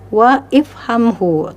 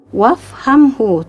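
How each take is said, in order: First: An extra vowel is pronounced after 'wa'. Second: 'Wa' links straight into the next consonant. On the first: The speaker calls it wrong. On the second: The speaker calls it right. "tapi langsung ya"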